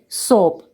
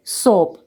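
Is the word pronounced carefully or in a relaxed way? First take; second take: relaxed; relaxed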